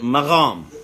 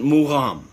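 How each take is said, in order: First: It is said the Persian way. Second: It is said the Azerbaijani way. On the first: "the Persians they pronounce it magham" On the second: "the Azerbaijanis they pronounce it mugham"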